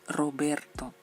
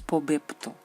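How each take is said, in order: First: The consonants are said as R sounds. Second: The consonants are said as P sounds. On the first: The speaker calls it right. "Claro, es Roberto" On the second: The speaker calls it wrong. "Y no es Pobepto"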